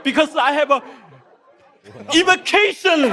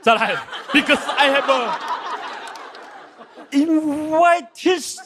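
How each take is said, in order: First: "invitation" said as "in-ve-KAY-shun", carefully; "invitation" closer to the taught "in-vi-TAY-shun"; corrected pronunciation. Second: "invitation" said slowly as "in-WAI-tis", stumbling; "invitation" garbled into "in-wai-tis", drawn out; mispronounced English. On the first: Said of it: "林书豪教一下我". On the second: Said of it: "这个字怎么读？". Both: Shown as a demonstration.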